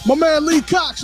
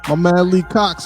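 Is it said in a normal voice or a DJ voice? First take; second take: DJ voice; normal voice. First: It is said in a put-on DJ voice. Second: It is said in his normal speaking voice.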